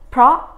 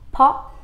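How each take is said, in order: First: The word starts with a p followed by r. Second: The word starts with a plain p, no r. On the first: "đọc đúng của nó là pro" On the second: "nói là po, bỏ mất chữ r"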